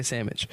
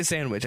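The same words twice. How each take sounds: First: Sandwich said as sammich, the nd and w dropped. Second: Sandwich with a clear n and w, sand-wich; full sandwich. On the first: Showing friends how he really says it, a casual sammich. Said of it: "I say sandwich". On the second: Telling friends how he doesn't say it, sandwich said in full. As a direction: spell out every sound of sandwich. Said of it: "I don't say sandwich". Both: Shown as a demonstration.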